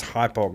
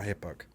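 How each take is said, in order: First: "Hypoc" said HY-pock, starting like hype; long i at the start of "Hypoc"; correct name pronunciation. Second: "Hippoc" said HIP-ock, short i; wrong name pronunciation. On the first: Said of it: "Make sure it's Hypoc". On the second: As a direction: start "Hippoc" like hip, as the mistaken version. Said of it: "not Hippoc". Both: Shown as a demonstration.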